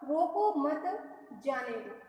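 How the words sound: There is a pause right after 'mat'. Do not stop the person; let them go. "अगर हम मत शब्द के बाद अल्पविराम लगाते हैं"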